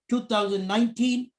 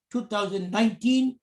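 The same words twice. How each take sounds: The two takes are said the same way.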